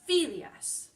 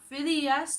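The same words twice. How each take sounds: First: The stress falls on the first syllable. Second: The stress falls on a later syllable. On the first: The speaker calls it right. "we put the stress on the penultimate, the second to last syllable" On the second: The speaker calls it wrong. "Not Phidias"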